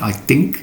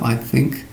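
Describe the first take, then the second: First: It is said with an Irish accent. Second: It is said with a standard English accent. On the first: The speaker calls it wrong. "Irishmen find it difficult. They say" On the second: The speaker calls it right. "instead of"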